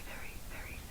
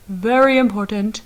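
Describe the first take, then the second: First: Whisper. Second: Very, very important said much louder; loud burst. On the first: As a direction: whisper very, very almost silently. Whispered before loud contrast. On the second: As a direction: burst out after the whisper. Loud burst after whisper. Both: Shown as a demonstration.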